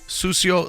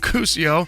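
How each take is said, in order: First: The name begins with an S sound. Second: The name begins with a K sound. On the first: The name as its owner says it. The speaker calls it right. "have heard the right way to say it" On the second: An outsider's anglicized version of the name. The speaker calls it wrong.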